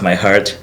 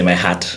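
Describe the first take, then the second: First: The R sound in heart is pronounced. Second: The R sound in heart is dropped. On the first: "if you want to say like my heart" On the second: "you say my hat"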